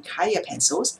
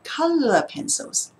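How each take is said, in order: First: The first word is pronounced like kaya. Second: The first word is pronounced like color. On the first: The speaker calls it wrong. "the mistake is" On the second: The speaker calls it right. "say color pencil correctly"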